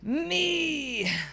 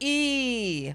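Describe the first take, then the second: First: It is said in a gritty, distorted voice. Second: It is said in a clean voice.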